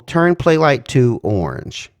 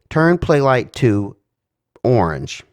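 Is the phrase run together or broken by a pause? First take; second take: together; broken. First: The phrase is said fast and together. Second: The phrase is broken by a pause. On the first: The speaker calls it right. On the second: The speaker calls it wrong.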